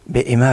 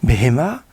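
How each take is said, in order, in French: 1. Le milieu a un coup de glotte, pas un h. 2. Le milieu a un son h clair. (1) "Behema avec un Aleph, ça veut dire avec crainte" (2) "Behema avec un He au milieu"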